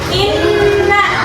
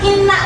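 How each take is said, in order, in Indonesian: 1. Bunyi n-nya ditekan dan ditahan panjang. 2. Bunyi n-nya pendek dan ringan. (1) "harus ditekan" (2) "bukan inna"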